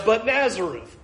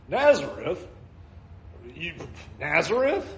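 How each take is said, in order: First: Nazareth leaned on, falling to a stop; stress on Nazareth. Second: Nazareth asked with a scoffing rise; mock the town in disbelief; incredulous question. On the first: Shown as a demonstration. Preacher stressing the hometown, Nazareth firm. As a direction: land hard on Nazareth. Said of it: "is not Messiah". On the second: Nathanael doubting the town, Nazareth rising in scorn. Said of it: "Nazareth is a two-bit town".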